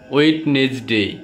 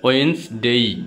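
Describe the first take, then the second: First: The first d is pronounced: Wed-nes-day. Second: The first d is silent: Wens-day. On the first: The speaker calls it wrong. "এটা সবাই বলে থাকে ওয়েডনেসডে" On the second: The speaker calls it right. "কিন্তু সঠিকটা কি হবে?"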